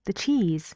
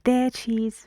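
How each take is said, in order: First: The word 'the' is weak and quiet. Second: The word 'the' is stressed and full. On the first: The speaker calls it right. "they're not stressed" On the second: The speaker calls it wrong. "You don't say"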